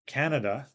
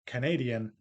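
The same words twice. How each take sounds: First: CAN-a-da, first syllable punched; Canada stressed up front. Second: Ca-NA-di-an, stress moved along; Canadian stressed on the second syllable. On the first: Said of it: "has stress on the first syllable". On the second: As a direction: hit NA in Canadian. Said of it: "the stress moves to the second syllable". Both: Shown as a demonstration.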